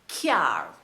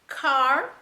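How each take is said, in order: First: A 'y' glide follows the k. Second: The k goes straight into the vowel.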